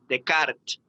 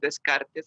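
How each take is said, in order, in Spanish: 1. El nombre se pronuncia con sonidos franceses. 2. El nombre se lee con sonidos españoles. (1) "la forma correcta de decirlo" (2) "yo no hablo francés, así es que tengo todo el derecho a decir Descartes"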